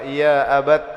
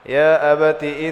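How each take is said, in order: First: The word ends on the consonant with no vowel. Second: The word ends with a short vowel before the next word. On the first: The reader stops at this word. "pian waqaf kayak apa?" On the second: The reading continues into the next words.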